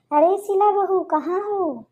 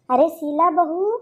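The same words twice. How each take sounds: First: Second call, higher and more insistent. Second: First call, slow and drawn out. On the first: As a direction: raise the voice, she didn't answer. Calls again, louder. (ऊँची, ज़ोरदार दूसरी पुकार) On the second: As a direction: call her name from another room, unhurried. Mother-in-law calls out to Sheela. (धीमी, खिंची हुई पुकार) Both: Acted.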